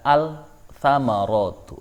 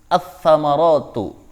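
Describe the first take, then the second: First: The l is clearly pronounced before the consonant. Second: The l merges into a doubled following consonant. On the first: The speaker calls it wrong. "Tidak boleh membaca" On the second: The speaker calls it right. "Maka lamnya tidak dibaca. Seperti"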